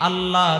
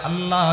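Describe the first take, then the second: No difference in how they are said.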